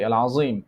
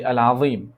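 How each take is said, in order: First: "al-Azim" with a buzzing z, Egyptian style; Egyptian z pronunciation. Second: "al-Azim" with a heavy voiced th for the z; tongue tip to teeth on the middle of "al-Azim"; classical th pronunciation. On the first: Teacher shows how Egyptians say it, z sound. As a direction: say "al-Azim" with z, not th. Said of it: "This is how we say". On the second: Teacher contrasts the form Egyptians don't say, heavy th. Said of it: "We don't say al-Azim". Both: Shown as a demonstration.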